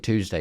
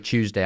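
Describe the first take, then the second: First: It is said with an American pronunciation. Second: It is said with a British pronunciation. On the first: Locals understand it. "I have to say Tuesday" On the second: Locals do not understand it. "if you say Tuesday out there, they go, eh?"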